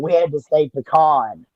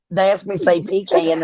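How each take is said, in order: First: "pecan" said as puh-KAHN; puh-kahn pronunciation. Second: "pecan" said as PEE-can; pee-can pronunciation. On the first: Woman recalling how she was raised, "pecan" as puh-KAHN. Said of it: "the way I was raised". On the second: Woman telling of family's word test, "pecan" as PEE-can. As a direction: give "pecan" a long ee and end it like can. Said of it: "every time we said pecan, we got in trouble". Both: Shown as a demonstration.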